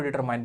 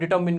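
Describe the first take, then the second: First: The last syllable is said 'mine', like the word mine. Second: The last syllable is said 'min', with a short vowel. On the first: The speaker calls it wrong. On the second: The speaker calls it right.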